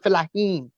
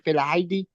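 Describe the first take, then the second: First: The word ends in a 'heen' sound. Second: The word ends in an 'eedee' sound. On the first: The speaker calls it right. "It's actually Felahin" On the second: The speaker calls it wrong. "at first I couldn't uh, pronounce it. I said Felaidi"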